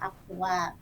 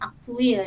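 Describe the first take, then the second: First: The last syllable is pronounced 'tual'. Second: The last syllable is pronounced 'tuil'. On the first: This is the standard form. The speaker calls it right. "padahal yang bakunya adalah aktual" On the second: This is the non-standard everyday form. The speaker calls it wrong. "kadang-kadang kita sering mendengar orang menyebutkan aktuil"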